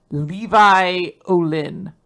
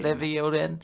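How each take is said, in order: First: Levi said LEE-vye, slowly; Levi with a long ee and an eye ending; alternate pronunciation. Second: Levi said LEV-ee; Levi with a short e and an ee ending; corrected pronunciation. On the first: Name said, then corrected by co-host. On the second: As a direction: say Levi as LEV-ee before Olin. Repeats the co-host's corrected pronunciation. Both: Shown as a demonstration.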